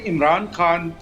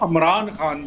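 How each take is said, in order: First: The name begins with an 'i' vowel. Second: The name begins with an 'a' vowel. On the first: This is how the speaker himself says the name. "जिस तरह मैं अभी pronounce कर रहा हूँ" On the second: This is how the name is said in the video, not by the speaker. "मैं अमरान तो नहीं कह सकता"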